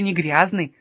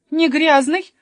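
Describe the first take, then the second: First: Said in the usual way. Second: НЕ ГРЯЗНЫЙ thrown back high and loud; ГРЯЗНЫЙ rising into a loud, disbelieving question; incredulous echo question. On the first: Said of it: "сказал Еспер". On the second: Acted. Sofia challenging Jesper's claim, high loud incredulous НЕ ГРЯЗНЫЙ?.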